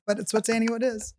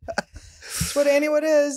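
First: Said in the usual way. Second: "is" drawn out slow and high, falling; stress on is. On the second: Real, not acted. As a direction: stretch "what Annie Wood is" slowly, landing on "is".

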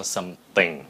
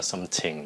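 First: SOMETHING with unaspirated th, no puff; correct th sound. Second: SOMETHING with puffed T for th; softer SOM-T-HING, aspirated; wrong th sound. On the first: Teacher giving learners the right form, correct SOMETHING. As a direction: model SOMETHING with a clean th. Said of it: "nó là something". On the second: Teacher rejecting the learners' version, mispronounced SOMETHING. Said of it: "không phải là something". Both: Shown as a demonstration.

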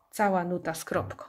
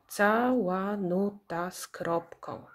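First: Said in the usual way. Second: "Cała nuta z kropką" slow, in six even beats; syllable by syllable. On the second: Shown as a demonstration. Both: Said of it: "ilość sylab w nazwie pokrywa się".

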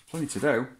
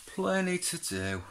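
First: Said in the usual way. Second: "Plenty to do" high and slowly stretched; high drawn-out repeat. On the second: Real, not acted. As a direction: sing "Plenty to do" out high and slow.

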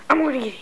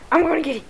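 No difference in how they are said.

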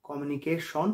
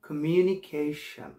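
First: কমিউনিকেশন with a round "shon" ending; wrong pronunciation. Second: Slow model of কমিউনিকেশন with an open "shan" ending; correct pronunciation. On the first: English teacher showing learners the common mistake, wrong "shon" ending. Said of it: "কমিউনিকেশন ভুল". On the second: English teacher modelling the right word, slow "shun" ending. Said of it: "শব্দটা হচ্ছে". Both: Shown as a demonstration.

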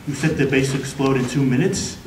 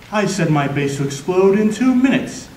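First: "two minutes" rising into a question; disbelieving question. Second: "two minutes" pushed as a declaration; villain's announcement. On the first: Hero checks the villain's countdown, questioning "two minutes" with a rise. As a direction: echo it lower, lifting "minutes" in doubt. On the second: Villain tells the hero about the exploding base, declaring "two minutes". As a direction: state it as a threat, landing on "two minutes". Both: Acted.

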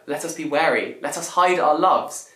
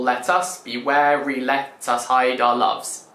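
First: Said in the usual way. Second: "Let us be wary, let us hide our loves" slowly, stressing every second syllable; slow di-dum rhythm on "Let us be wary, let us hide our loves"; iambic scansion. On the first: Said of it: "So for example". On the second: Shown as a demonstration. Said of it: "makes it an iambic pentameter".

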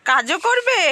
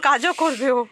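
First: High, loud incredulous echo; surprised loud question. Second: Loud, level, settled repeat; loud statement. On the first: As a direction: call back in disbelief. Echoing reply, surprised, loudly. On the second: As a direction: call it back as a fact. Restating reply, settled. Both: Real, not acted.

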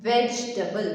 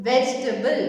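First: വെജിറ്റബിൾ said lower, as "ve-ji-ta-bul" with four syllables; wrong vegetable. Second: വെജിറ്റബിൾ said louder with a rise, as "vej-ta-bul"; right vegetable. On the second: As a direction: say വെജിറ്റബിൾ in three syllables. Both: Shown as a demonstration. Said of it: "വെജിറ്റബിൾ അല്ല".

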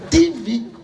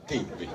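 First: Said in the usual way. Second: Dropped low and much softer, barely out; embarrassed mumble. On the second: Retold or imitated. Shy customer muttering "Timbi" to the pharmacist. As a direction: swallow "Timbi" low and soft, as if ashamed.

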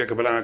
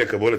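First: "הקבלה" with open a vowels, "ha-kabala"; modern Hebrew pronunciation. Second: "הקבולה" with o and final e, "ha-kaboleh". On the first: Lecturer restating for the class, "הקבלה" as modern ha-kabala. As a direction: say "הקבלה" the Israeli way, ka-ba-LA. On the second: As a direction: say "הקבולה" the Yiddish-inflected way, ka-BO-leh. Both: Real, not acted.

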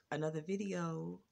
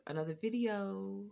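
The two takes are said the same way.

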